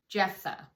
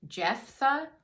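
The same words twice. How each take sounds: First: "Jephthah" falling, as a statement; settled attempt. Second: "Jephthah?" high with a sharp questioning rise; questioning attempt. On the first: Storyteller settling on the unfamiliar name, decided. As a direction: land "Jephthah" with a downward, decided tune. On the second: Storyteller testing an unfamiliar Bible name, questioning. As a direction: try "Jephthah?" as an unsure, louder question. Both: Real, not acted.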